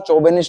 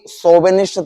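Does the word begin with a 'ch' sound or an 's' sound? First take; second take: ch; s. First: The word begins with a 'ch' sound. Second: The word begins with an 's' sound. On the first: The speaker calls it wrong. "चौबेनिस्ट नहीं था" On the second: The speaker calls it right. "तो वो भी सोबेनिस्ट था"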